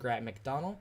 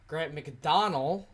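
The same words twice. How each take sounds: First: The surname's ending does not sound like Donald. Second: The surname's ending sounds like the name Donald. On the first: The speaker calls it wrong. "I said it wrong" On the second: The speaker calls it right. "like Donald"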